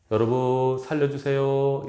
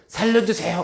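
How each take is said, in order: First: Said in the usual way. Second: High, loud, frantic 살려주세요 with a stretched end; urgent, all-out call for rescue; desperate cry for help. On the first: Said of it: "이럴까요? 아니면". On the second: Shown as a demonstration. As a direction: scream it like you're drowning. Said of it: "아니면".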